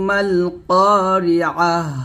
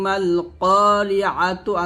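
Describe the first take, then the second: First: The word ends with a silent h. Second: The word ends with a t and vowel. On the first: The reader stops at this word. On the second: The reading continues without stopping.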